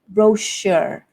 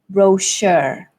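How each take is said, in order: First: The stress is on the second syllable. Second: The stress is on the second syllable.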